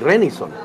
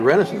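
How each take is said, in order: First: The name is said with a Spanish pronunciation. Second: The name is said with an English pronunciation. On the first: This is how people in Mexicali say it. "They say Renison. ... it's just the way they pronounce it" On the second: This is not how people in Mexicali say it. "they don't call me Renison"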